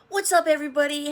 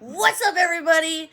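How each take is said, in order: First: It is said with ordinary, lower energy. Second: It is said with much more energy.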